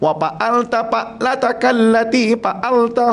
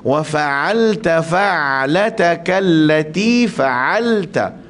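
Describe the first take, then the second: First: The f becomes p and the ain is lost. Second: The f and ain sounds are clearly pronounced. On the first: The speaker calls it wrong. "dia jadi pa ... dia jadi a ... semua salah" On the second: The speaker calls it right. "Sedangkan bacaan dia"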